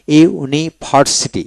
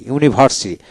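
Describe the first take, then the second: First: Slow, split "university" into iu-ni-bhar-siti; syllable by syllable. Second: Said in the usual way. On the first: Shown as a demonstration. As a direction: break "university" apart for a learner. Teacher splits word into syllables.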